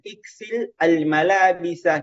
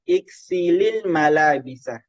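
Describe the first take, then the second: First: The words are said without an added linking vowel. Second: The words are joined with an added i-vowel.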